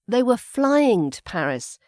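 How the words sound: The word flying carries the stress. They flew rather than drove or took the train. "we put the emphasis here on the flying"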